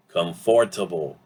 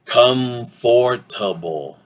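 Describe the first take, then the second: First: "comfortable" in full syllables at a natural pace; full pronunciation. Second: "comfortable" slowly, syllable by syllable, com-FOR-ta-ble; full pronunciation. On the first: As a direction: say "comfortable" as com-for-ta-ble, more quickly joined. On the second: Teacher introduces the last word, "comfortable" slowly in full syllables. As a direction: draw out every syllable of "comfortable". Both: Shown as a demonstration. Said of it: "Usually we say this word as".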